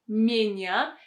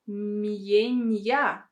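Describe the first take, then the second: First: The m is softened with no separate y glide. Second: A separate y glide is inserted after the m. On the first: The speaker calls it right. "these vowels should be pronounced without this sound y" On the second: The speaker calls it wrong. "they will pronounce as mienya"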